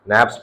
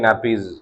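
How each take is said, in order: First: The word is said as one syllable. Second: The word is said as two syllables. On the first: "नैप्स भी आप कह सकते हो" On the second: "नैपीज जो है सही प्रोनाउंसिएशन है इसकी"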